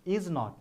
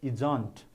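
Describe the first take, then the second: First: It is said as two full separate words. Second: It is said as one contracted syllable group. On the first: The speaker calls it wrong. "you should not pronounce is not" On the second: The speaker calls it right. "it should be pronounced as isn't"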